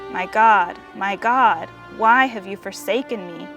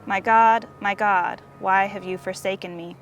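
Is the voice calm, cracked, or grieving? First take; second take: grieving; calm. First: It is said in a voice full of grief. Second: It is said in a calm, steady voice.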